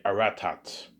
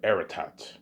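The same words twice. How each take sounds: First: Aratat said uh-RAT-at, with a schwa first and the stress on the middle syllable; stressed second syllable. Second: Aratat said AIR-uh-tat, with an open first vowel and the stress on the first syllable. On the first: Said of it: "I might have them say Aratat". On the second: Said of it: "instead of Aratat". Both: Shown as a demonstration.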